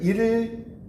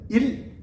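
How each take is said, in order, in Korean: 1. 음절이 길게 늘어져요. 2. 음절이 짧게 딱 끊겨요. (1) "그럼 너무 늘어져" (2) "일을 짧게 발음해야죠"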